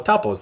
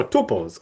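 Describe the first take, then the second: First: "tuples" with a short open vowel, TUP-uls. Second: "tuples" with a long oo, TOO-puls. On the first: Teacher offering learners the other pronunciation, "tuples" said TUP-uls. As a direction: say "tuples" to rhyme with "couples". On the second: Teacher offering learners one pronunciation, "tuples" said TOO-puls. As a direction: say "tuples" with first syllable like "two". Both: Shown as a demonstration. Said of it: "however you people pronounce them".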